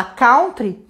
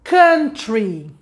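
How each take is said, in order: First: Country said as kawtri with cow sound; wrong pronunciation. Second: Country said as kuntri with short u; correct pronunciation. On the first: Retold or imitated. Teacher imitates common Brazilian kawtri mistake. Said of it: "que não existe". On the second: Shown as a demonstration. Teacher models correct country for viewers. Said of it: "A palavra é".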